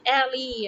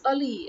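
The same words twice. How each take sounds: First: "Ali" with a flat a as in cat; mispronounced Ali. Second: "Ali" opening on a short uh; correct Ali. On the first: Complaining to people who get names wrong, mispronounced Ali. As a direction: say "Ali" with the a of "alley". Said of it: "why do you have to say Ali". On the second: Correcting people who get the name wrong, correct Ali. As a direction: say "Ali" as uh-LEE, not like "alley". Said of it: "It's Ali". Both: Shown as a demonstration.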